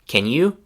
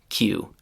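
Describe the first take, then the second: First: Can is said in full before you. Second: Can shrinks to a k sound joined to you.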